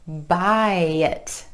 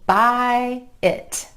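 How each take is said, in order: First: The words are joined with a y glide. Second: The two words are said separately.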